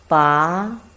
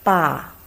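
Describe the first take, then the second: First: It is said with the second tone. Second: It is said with the fourth tone. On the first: "the second tongue" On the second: "Fourth tongue"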